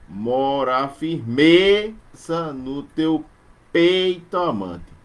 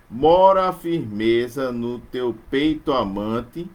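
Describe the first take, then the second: First: Very slow scansion stressing "firmeza" and "peito". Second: Slow, stressing "Mora" and "firmeza"; slow verse reading with stresses marked; scansion reading. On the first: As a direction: hit the fourth and eighth beats hard. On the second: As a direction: mark the fourth syllable beat. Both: Shown as a demonstration. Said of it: "acentuado na quarta e na oitava".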